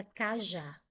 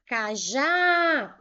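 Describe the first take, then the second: First: Said in the usual way. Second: "cajá" called out with a long, loud final JÁ; called-out stressed syllable. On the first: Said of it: "vou chamar cajá". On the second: Shown as a demonstration. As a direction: call "cajá" slowly, throwing weight on the last syllable. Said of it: "O já eu chamei mais forte". ("cajá" chamado com o JÁ forte e alongado)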